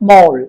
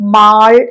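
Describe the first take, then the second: First: The vowel is a rounded 'oh' sound. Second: The vowel is an open 'ah' sound. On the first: The speaker calls it right. "മോൾ എന്നാണ് കേട്ടോ" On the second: The speaker calls it wrong. "ഈ ഒരു വാക്ക് നമ്മൾ pronounce ചെയ്യേണ്ടത് മാൾ എന്നല്ല"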